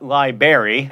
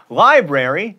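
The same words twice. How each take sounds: First: "library" as LIE-berry, first R dropped; wrong library. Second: "Library" with both Rs, LIE-bra-ree; correct library. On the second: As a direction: say every R in "Library". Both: Shown as a demonstration. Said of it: "not library".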